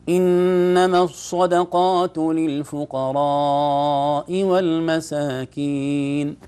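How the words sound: The sound is split between the nose and mouth. The speaker calls it wrong. "الثاني متوزع القوة ما بين الخيشوم وبين الفم"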